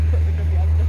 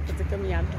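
First: Loud, cheering call; shouted cheer. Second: Said in the usual way. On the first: Pretend. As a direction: belt it out like a cheer. (gritando animada)

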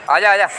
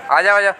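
No difference in how they are said.

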